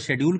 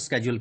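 First: It is said in a British accent. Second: It is said in an American accent.

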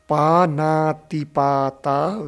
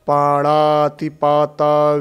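First: The second consonant is a dental n. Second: The second consonant is a retroflex n. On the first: The speaker calls it right. "न का ण नहीं बोलना है" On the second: The speaker calls it wrong. "मैंने सुना है, ... ऐसे उच्चारण करते हैं"

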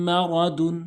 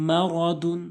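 Both takes have the same delivery.

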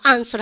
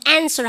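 First: The first vowel is an open 'ah' sound. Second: The first vowel is a flat 'ae' sound.

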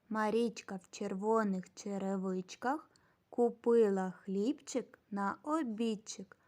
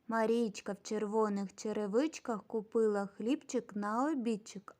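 First: The phrase is spoken slowly. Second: The phrase is spoken fairly fast. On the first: "А тепер разом і повільно" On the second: "Тепер швидше"

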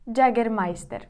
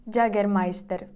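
First: It is pronounced with Spanish-style sounds. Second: The same.

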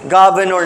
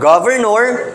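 First: One of the two r sounds is dropped. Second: Both r sounds are pronounced in full. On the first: "naging governor na lang siya. Especially if done rapidly" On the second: "From governor"

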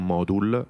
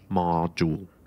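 First: The middle consonant is a plain d sound. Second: The middle consonant is a soft j sound. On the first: The speaker calls it wrong. "non dico module" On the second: The speaker calls it right. "io dico module, con la G di gioco"

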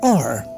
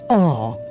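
First: It is said in an American accent. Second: It is said in a British accent. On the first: "do you know how do the Americans pronounce this letter? They say R" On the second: "And the British, they say R"

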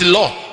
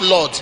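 First: The word ends without its final consonant. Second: The word ends with a clear final consonant. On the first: The speaker rarely goes to church. "From the way they have been calling the Lord, it's law" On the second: This is the proper way to say it. "it's not Lord"

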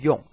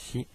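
First: The word is said as 'yon'. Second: The word is said as 'shee'. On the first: The speaker calls it right. "的是数字的四一般念成用" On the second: The speaker calls it wrong. "而不念成另外一个可以的发音，就是西"

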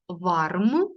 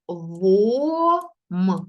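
First: The word is read as spelled, with R. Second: The word has an O vowel and no R. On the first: "Пишеться ось так" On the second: "Читається через О. І Р не читається"

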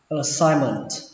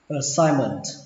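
No difference in how they are said.

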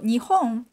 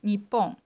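First: The middle consonant is a soft h sound. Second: The middle consonant is a doubled p sound. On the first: "So Japan has two pronunciations only for Japan in Japanese" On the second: "there's another pronunciation for Japan in Japanese, it's Nippon"

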